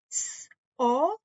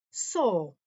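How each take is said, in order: First: Each sound said apart, S then o; sounded out letters. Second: Said in the usual way. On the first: Shown as a demonstration. Teacher sounding out S and o for the class. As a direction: sound out S and o one by one. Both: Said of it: "tell you these sounds and words".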